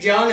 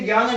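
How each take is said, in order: First: The word begins with a j-like sound. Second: The word begins with a g-y sound. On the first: The speaker calls it right. "ज्ञान है" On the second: The speaker calls it wrong. "सही तरीके से तो ये ज्ञान नहीं है"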